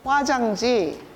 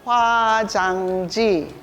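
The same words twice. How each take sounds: First: The word is said faster. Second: The word is said slowly.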